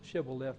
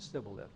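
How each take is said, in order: First: The word begins with an 'sh' sound. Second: The word begins with an 's' sound. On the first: The speaker is from Gilead. The speaker calls it right. "Now say Shibboleth" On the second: The speaker is an Ephraimite. The speaker calls it wrong. "he couldn't pronounce it correctly"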